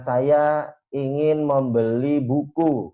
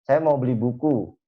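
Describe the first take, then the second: First: Slow, carefully complete sentence; slow formal example. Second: Said in the usual way. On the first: Shown as a demonstration. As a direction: spell out each word of the formal version. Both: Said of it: "biasanya itu kan terlalu lengkap gramatikalnya".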